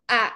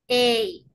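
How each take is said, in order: First: The letter is said as a plain 'ah' vowel. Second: The letter is said as a gliding 'ay' sound. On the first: "En español decimos A" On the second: "en inglés, ¿qué decimos?"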